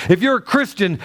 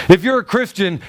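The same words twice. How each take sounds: The two takes are said the same way.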